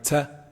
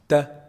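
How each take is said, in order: First: The t is released with a whistling hiss. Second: The t is released cleanly without any hiss. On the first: The speaker calls it wrong. "Do not do it with a whistling sound like" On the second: The speaker calls it right. "That's wrong"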